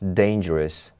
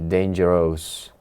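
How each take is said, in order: First: The last syllable is reduced to a short 'rus'. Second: The last syllable is said as a full ending. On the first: The speaker calls it right. "We say rus" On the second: The speaker calls it wrong. "Many students here say dangerous, which is really wrong saying"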